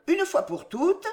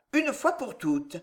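First: Higher pitch on "une fois pour toutes"; indulgent firmness. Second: Slow, insistent "une fois pour toutes"; mild impatience. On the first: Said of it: "avec un sourire indulgent". (fermeté indulgente) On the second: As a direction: end the matter with restrained impatience, slowly. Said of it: "interrompit-il avec impatience". (légère impatience) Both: A narrator's reading.

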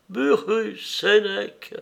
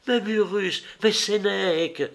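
First: Higher-pitched, bitter echo of the names. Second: Higher-pitched cry of protest; exclamation. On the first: Unknown woman echoes Acté's two names, bitterly. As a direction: throw both names back with bitterness. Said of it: "reprit avec amertume". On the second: Acté objects to the unknown woman's account, exclaiming. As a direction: mildly exclaim the two names, pitched up. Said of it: "s'écria Acté". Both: A narrator's reading.

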